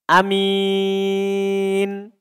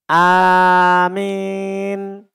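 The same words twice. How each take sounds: First: The first vowel is short and the m is light. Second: The a vowel leans toward an e sound. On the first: "kita pendekkan hamzanya dan ringan mimnya" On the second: "kita condongkan suara mimnya itu ke fathah. Ya, atau fathah ke kasroh"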